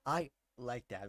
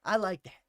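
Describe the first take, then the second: First: "I like that" slow and lower, pausing after "I"; emphatic slow repeat. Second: Said in the usual way. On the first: Real, not acted. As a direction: draw out "I", pause, then drop into "like that".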